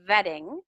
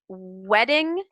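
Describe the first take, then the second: First: The word begins with a teeth-on-lip V sound. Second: The word begins with a rounded-lip W sound. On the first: The speaker calls it wrong. "change it into a V" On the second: The speaker calls it right. "don't touch your teeth"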